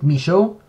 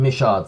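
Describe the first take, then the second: First: The name is pronounced the French way. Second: The name is pronounced the English way. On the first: "It's pretty much a French family name that you can pronounce it Michaud" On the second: "the English producers all call him Michaud"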